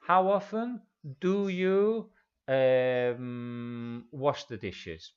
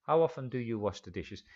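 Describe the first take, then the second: First: Slowed-down teacher question, word by word; slow model question. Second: Fast, natural-speed question; quick run-through. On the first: Teacher models the question for students, slow and careful. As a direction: spell it out slowly for the learners. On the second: Teacher repeats the question for students, fast and fluent. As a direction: rattle it off at real speed. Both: Shown as a demonstration.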